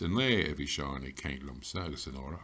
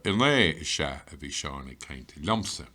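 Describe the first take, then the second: First: Said in the usual way. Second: "In lé is Sha" pushed, the rest easing off; stress on Sha. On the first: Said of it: "we can stress it further". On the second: Shown as a demonstration. Teacher showing further stress on when he talked, hitting "Sha". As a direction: punch "Sha" after "In lé". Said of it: "And we can stress it further".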